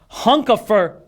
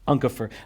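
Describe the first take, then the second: First: The name begins with an H sound. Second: The name begins with a vowel sound. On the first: The speaker calls it wrong. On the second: The speaker calls it right.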